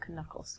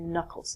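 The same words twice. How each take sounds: First: The first K is sounded. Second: The first K is silent. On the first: The speaker calls it wrong. "not your knuckles" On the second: The speaker calls it right. "are called your knuckles"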